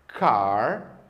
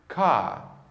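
First: The final r sound is clearly pronounced. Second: The final r sound is left silent. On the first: This is the American pronunciation. "No inglês norte-americano, a letra R no final das palavras sempre é pronunciada" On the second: This is the British pronunciation. "uma pessoa do Reino Unido falaria essas mesmas palavras dessa forma aqui"

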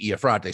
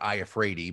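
First: The name is said with an Italian pronunciation. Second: The name is said with an anglicized pronunciation. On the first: "the Italian pronunciation would be Iafrate" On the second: "they pronounce it Iafrati"

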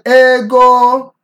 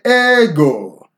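First: Both syllables are said on a high pitch. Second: The first syllable is high, the second low. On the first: "that would be high, high" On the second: "that would be high, low"

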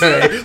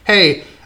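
First: It is said in a shaky voice. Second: It is said in a steady voice.

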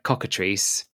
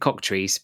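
First: The middle syllable is pronounced, giving three syllables. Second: The middle syllable is dropped, giving two syllables. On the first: "it's spelt like cockatrice" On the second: "some people pronounce it cocktrice"

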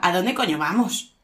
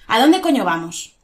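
First: It is said in a friendly way. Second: It is said in an angry way.

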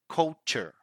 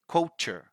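First: The R in the word is pronounced. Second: The R in the word is pronounced.

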